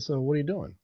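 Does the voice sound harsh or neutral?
neutral. It is said in a calm, neutral tone. It is just a regular question. "If you take all the tone out"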